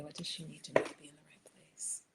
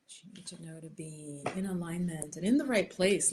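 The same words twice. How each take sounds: First: Whispered question, softer and a little quicker. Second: Said in the usual way. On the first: Real, not acted. Tarot reader whispers the question into the deck. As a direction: breathe the question to the cards.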